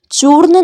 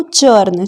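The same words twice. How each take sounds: First: चूर्ण with a long "oo"; wrong pronunciation. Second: चर्न with a short neutral vowel; no "oo" sound in चर्न; correct pronunciation. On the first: Teacher showing what to avoid, चूर्ण with long U. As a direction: sound the U fully in चूर्ण. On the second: Teacher giving the fix, चर्न with neutral vowel. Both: Shown as a demonstration. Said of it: "नहीं पढ़ना है इसको".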